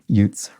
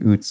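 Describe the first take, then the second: First: The word begins with a 'y' sound. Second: The word begins directly with an 'oo' sound. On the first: The speaker calls it right. "pronounced youths" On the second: The speaker calls it wrong. "I think I was saying oots"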